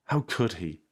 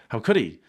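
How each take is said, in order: First: Said in the usual way. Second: "How could he" said louder, with emphasis; indignant re-reading. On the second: A narrator's reading. Re-read as the character's outraged line.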